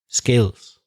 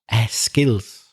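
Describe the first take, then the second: First: The word starts directly with the s sound. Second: An extra vowel sound comes before the s. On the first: The speaker calls it right. "the first sound that comes out of your mouth should be s" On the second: The speaker calls it wrong. "an intrusive eh sound"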